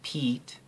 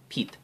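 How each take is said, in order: First: The vowel is held long. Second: The vowel is cut short. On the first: "having peat be long" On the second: "and pit short"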